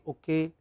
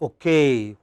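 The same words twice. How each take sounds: First: The stress is on the first syllable. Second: The stress is on the last syllable. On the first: It is the casual way used among friends. "In India, we often say okay" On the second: It is the formal way for conferences and presentations. "in a formal occasion... it should be okay"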